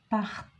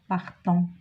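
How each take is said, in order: First: The final ending is silent, leaving one fewer syllable. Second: The final ending is pronounced as an extra syllable. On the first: The speaker calls it right. "E N T ne se prononce pas" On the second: The speaker calls it wrong. "On ne dit pas partant"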